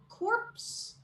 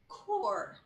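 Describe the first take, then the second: First: The P and S sounds are pronounced. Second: The P and S sounds are silent. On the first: The speaker calls it wrong. "Is it A" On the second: The speaker calls it right. "this word has, of course, a silent P and S"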